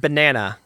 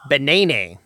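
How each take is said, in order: First: The word is said in a plain, normal way. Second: The word is said in an exaggerated, distorted way. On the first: "so the word is banana" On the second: "what's the most obnoxious, like most offensive way of saying this word?"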